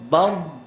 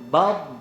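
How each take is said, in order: Both takes have the same delivery.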